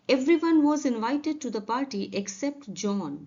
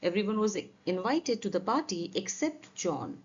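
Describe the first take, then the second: First: Very slow, evenly spaced words; slow careful model sentence; slow dictation read. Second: Very slow, a little lower reread; slow careful classroom reread; slow repeat. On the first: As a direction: read it slowly for learners. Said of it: "teacher reads example slowly". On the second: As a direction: go over it once more, slowly. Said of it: "teacher rereads example". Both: Shown as a demonstration.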